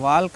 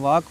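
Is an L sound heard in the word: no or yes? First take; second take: yes; no. First: The word is said with an L sound. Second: The word is said without an L sound. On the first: The speaker calls it wrong. "वाल्क नहीं" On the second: The speaker calls it right. "वाक पढ़ना है"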